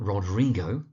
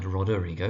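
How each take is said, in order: First: Rodrigo said rod-REE-go; three-syllable variant. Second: Roderigo said rod-er-EE-go; four-syllable variant. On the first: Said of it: "although you sometimes find Roderigo". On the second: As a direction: add an "er" inside Roderigo. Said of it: "which is also valid". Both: Shown as a demonstration.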